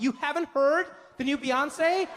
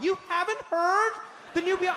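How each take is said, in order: First: Mock disbelief. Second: Shrieked mock disbelief. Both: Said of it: "they'll be like".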